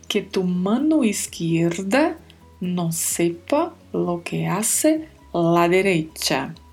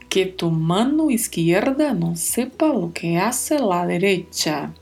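First: The phrase is spoken more slowly. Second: The phrase is spoken at normal speed.

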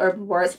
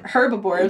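First: The word begins without an h sound. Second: The word begins with an h sound. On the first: The speaker calls it right. "No H" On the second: The speaker calls it wrong. "I'm not calling them herbivores"

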